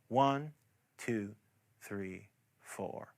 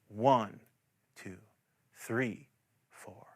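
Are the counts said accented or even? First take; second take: even; accented. First: All four counts are said with equal weight. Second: The first and third counts are slightly stressed. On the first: "In a repeating pattern" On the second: "add the emphasis that matches the [name] recording"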